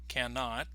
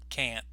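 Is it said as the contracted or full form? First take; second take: full; contracted. First: It is said as the full two-syllable form. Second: It is said as a short contracted form.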